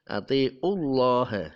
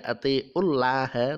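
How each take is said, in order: First: Atiullah with a thick, full Allah; heavy Allah. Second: Atiullah with a thin, light Allah. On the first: Teacher showing the right heavy atiullah. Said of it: "atiullah dibaca tebal". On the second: Teacher showing the wrong thin atiullah. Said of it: "Tidak atiullah". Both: Shown as a demonstration.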